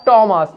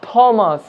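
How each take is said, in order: First: "টমাস" with a plain t; silent h. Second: "থমাস" with an aspirated th; wrongly aspirated "থমাস"; wrong pronunciation. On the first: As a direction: say "টমাস" with no breath after the t. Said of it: "এইচ silent রয়েছে". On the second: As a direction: puff the th of "থমাস". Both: Shown as a demonstration.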